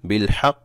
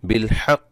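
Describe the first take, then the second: The two takes are said the same way.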